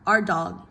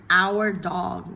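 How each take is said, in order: First: Our is unstressed and reduced to a quick R. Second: Our is stressed and said in full. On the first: The word is not being emphasized. "it's a function word, so typically you'll hear" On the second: The word is being emphasized. "if we're talking and we're stressing the word our"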